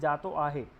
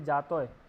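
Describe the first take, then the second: First: The phrase is said as two full words. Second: The phrase is squeezed into one short word. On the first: "standard form is jato ahe" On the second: "sometimes people say jatoy"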